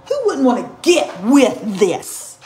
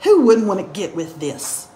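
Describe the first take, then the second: First: Slow and loud, each of GET WITH THIS punched; drawn-out, emphatic brag on "get with this"; punched boast. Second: Said in the usual way. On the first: Real, not acted. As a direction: hammer out "get with this" word by word. Mock boast repeated with punch.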